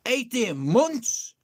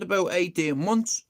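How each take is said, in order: First: Slow, drawn-out disbelief; stunned repeat. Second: Said in the usual way. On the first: Retold or imitated. Repeating the mate's answer back, slow and stunned. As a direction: stretch it out in shock.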